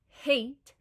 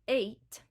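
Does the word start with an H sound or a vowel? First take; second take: H sound; vowel. First: The word starts with an H sound. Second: The word starts straight on the vowel.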